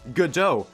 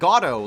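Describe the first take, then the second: First: The name is said like the play title Godot. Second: The name is said like the word Gatto. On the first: The speaker calls it right. "that's also how you pronounce it" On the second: The speaker calls it wrong. "not Gatto, like I say all the time"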